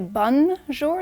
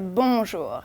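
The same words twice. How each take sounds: First: The n is sounded as a full consonant. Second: The n is dropped, leaving a nasal vowel. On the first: The speaker calls it wrong. "don't say bonjour, don't pronounce the N" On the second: The speaker calls it right. "Just say bonjour. It's very nasal"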